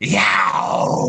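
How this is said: The scream is rough and raspy. "my original screams had more of like a raspiness to it"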